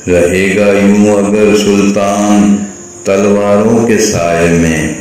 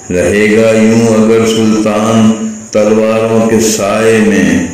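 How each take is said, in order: Both takes have the same delivery.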